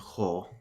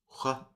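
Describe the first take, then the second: First: The word is shortened to a single 'ho'. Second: The word ends with a full 'wa' sound. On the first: This is the fast-speech form. "in fast speech it'll be ho" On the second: This is the careful-speech form. "in careful speech it'll be hua"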